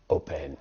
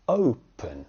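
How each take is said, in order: First: The stress is on the second syllable. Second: The stress is on the first syllable. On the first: The speaker calls it wrong. "it's not open" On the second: The speaker calls it right. "the stress is on the first syllable"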